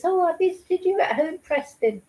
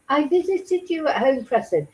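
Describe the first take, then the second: First: Mock talking-down-to-a-baby voice, lifted high; condescending. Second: Said in the usual way. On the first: Host mocking a social worker's report written to a baby, condescending. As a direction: mimic an adult cooing at a toddler. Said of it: "not like this". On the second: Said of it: "In her note, she wrote".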